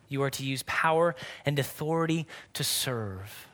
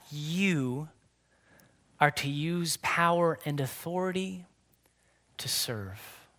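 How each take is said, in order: First: Said in the usual way. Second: Fading to a whisper. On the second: Real, not acted. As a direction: trail off into a soft whisper on serve. Preacher drops into whisper.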